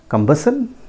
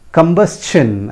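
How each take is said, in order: First: Combustion as kum-BUS-un, questioning; common mispronunciation. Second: Combustion higher, as kum-BUS-chun; correct pronunciation. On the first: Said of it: "that is not the correct pronunciation". (Combustion का गलत उच्चारण, कम-बस-सन) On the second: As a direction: sound S plus CH in combustion. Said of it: "It is pronounced as". (combustion का सही उच्चारण, कम-बस-चन) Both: Shown as a demonstration.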